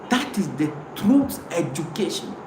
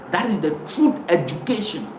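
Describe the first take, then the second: No difference in how they are said.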